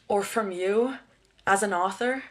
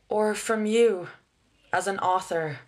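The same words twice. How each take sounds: First: The word author carries the main stress. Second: The word you carries the main stress. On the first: The speaker calls it wrong. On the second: The speaker calls it right.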